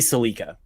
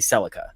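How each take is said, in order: First: It is said in the speaker's own accent. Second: It is said in the other person's accent. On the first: This is how the speaker's country says it. "we would say Celica" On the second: This is how the other country says it. "I think you would say Celica"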